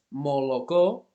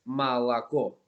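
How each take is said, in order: First: The unstressed vowels are full O sounds. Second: The unstressed vowels are reduced to A sounds. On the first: The speaker calls it wrong. "leche no es molocó" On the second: The speaker calls it right. "es malacó"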